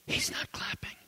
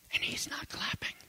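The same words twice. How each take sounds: First: Soft repeated whisper. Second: Breathless hushed whisper; a heartbroken secret whisper. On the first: Acted. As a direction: let it land in a hush. Preacher repeats the girl's words. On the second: Retold or imitated. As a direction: barely breathe the words. Girl confides about teacher.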